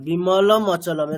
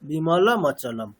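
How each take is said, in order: First: A break separates the two words. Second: The final m runs straight into the next word. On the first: The speaker calls it wrong. "আমাদের tendency কি হবে এরকমই বলার" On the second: The speaker calls it right. "এই দুটোকে attach করলে দেখবেন খুব সোজা হয়ে যাচ্ছে"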